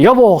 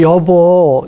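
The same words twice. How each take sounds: First: It is said in a blunt, curt tone. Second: It is said in a sweet, gentle tone. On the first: The speaker's face turns into a glare. The speaker calls it wrong. "투명하게 말해서" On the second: The speaker's face turns into a smile. The speaker calls it right. "상냥하게 말하면 자기도 모르게 인상이 웃는 얼굴이 됩니다"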